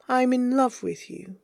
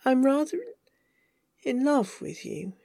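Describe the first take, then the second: First: Higher, tender declaration of love; earnest confession. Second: Halting love confession, softening at the end; hesitant confession. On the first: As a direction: say it in one unbroken, heartfelt phrase. Repeats the confession without hedging. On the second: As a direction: break after RATHER, then finish softly. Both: Acted.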